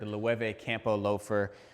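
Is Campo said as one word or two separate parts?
one word. Campo is said smoothly as one word. The speaker calls it right.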